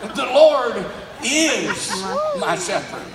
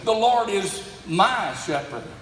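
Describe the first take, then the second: First: The stress is on "is". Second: The stress is on "my".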